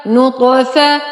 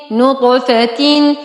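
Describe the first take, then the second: First: نطفة with no "tin" ending, cut at "fa"; نطفة ending in fatha. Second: Slow, drawn-out نطفة ending in "-atin"; نطفة with kasratain. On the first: Teacher joining the syllables so far, نطفة said "nutfa". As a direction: say نطفة as "nutfa", stopping on the short a. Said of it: "فا فتحة ف". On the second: Teacher reading the completed word, نطفة said "nutfatin". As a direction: say نطفة as "nutfatin", sounding the final "tin". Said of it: "تا كسرتين تين". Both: Shown as a demonstration.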